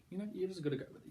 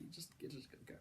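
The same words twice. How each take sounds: First: Said in the usual way. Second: Whispered. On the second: Acted. Repeating the verdict as aside.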